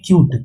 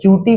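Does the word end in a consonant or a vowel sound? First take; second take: consonant; vowel. First: The word ends on a plain 't' consonant. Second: The word ends with an extra 'ee' vowel. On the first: The speaker calls it right. "तो इसलिए क्यूट।" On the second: The speaker calls it wrong. "अब इसको आप लोग क्यूटी मत बोलिएगा"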